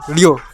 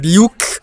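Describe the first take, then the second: First: The word ends on a vowel. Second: The word ends with a k sound. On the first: The ending was dropped over time. "we just dropped it. We just said Liu. We got rid of the K" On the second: This is the older pronunciation. "Like you have"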